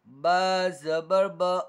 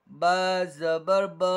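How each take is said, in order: No difference in how they are said.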